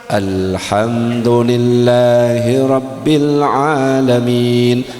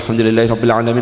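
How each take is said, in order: First: It is recited slowly. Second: It is recited quickly. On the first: This is how another group's imams usually recite. "ternyata pelan" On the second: This is how one group's imams usually recite.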